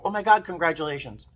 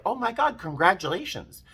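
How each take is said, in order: First: High, eager cheer; excited congratulations. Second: High, bright burst of joy; thrilled congratulations, pitched up; excited congratulations. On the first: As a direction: blurt it out happily. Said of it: "My first instinct was to go". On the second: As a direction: gush it out delighted. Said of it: "And I was like". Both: Retold or imitated.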